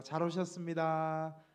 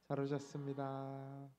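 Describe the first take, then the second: First: Slow, loud welcoming greeting; louder, slow welcome for the congregation to copy; greeting demo. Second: Said in the usual way. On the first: Shown as a demonstration. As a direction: show everyone how to greet their neighbour. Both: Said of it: "이렇게 한번 인사하시겠습니다".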